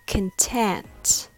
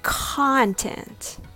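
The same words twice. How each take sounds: First: The stress is on the second syllable. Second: The stress is on the first syllable.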